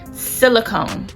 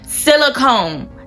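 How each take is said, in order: First: The word is said at normal, softer volume. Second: The word is said louder.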